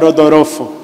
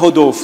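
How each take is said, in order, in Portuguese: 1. O nome é dito com sotaque japonês. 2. O nome é dito com sotaque brasileiro. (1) "Se eu fosse ministrar no Japão" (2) "Se você pregasse no Brasil"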